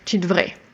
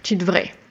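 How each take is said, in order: First: Part of devrais is dropped, said quickly. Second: Part of devrais is dropped, said quickly.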